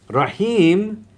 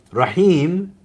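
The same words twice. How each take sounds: First: Rahim lifted high, long rise on the last syllable; Arabic word Rahim. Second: Rahim sung out high with a long rising end; Arabic word Rahim. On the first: Teacher repeating Rahim to students, held and rising. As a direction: stretch Rahim upward to show it goes on. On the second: Teacher introducing Rahim to students, raised and drawn out. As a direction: lift Rahim up and stretch it. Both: Shown as a demonstration. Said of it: "denotes continuity".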